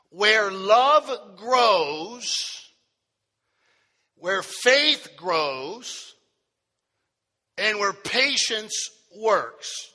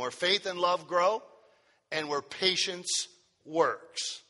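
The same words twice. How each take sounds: First: Very slow, stretched words with long pauses; proclaimed sermon title. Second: Said in the usual way. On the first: Real, not acted. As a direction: proclaim each phrase and let it hang. Repeats title slowly for note takers.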